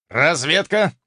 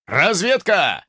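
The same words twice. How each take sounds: First: Said in the usual way. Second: Shouted command. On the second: Acted. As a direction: bark the order out. Chief orders scouts forward.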